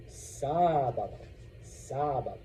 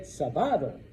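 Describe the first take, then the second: First: "sábado" as SÁÁ-ba-do, first A drawn out; stress on accented A. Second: "sábado" stressed as sa-BA-do; wrong middle stress. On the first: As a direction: stretch the SÁ in "sábado". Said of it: "now you know to say". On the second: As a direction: put the weight on BA in "sábado". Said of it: "that's the natural pattern". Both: Shown as a demonstration.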